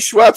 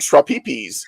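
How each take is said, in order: First: The name is said as one short syllable. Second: The name is stretched into three syllables. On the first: "whenever I see Schweppes" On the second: "because that's how he said it"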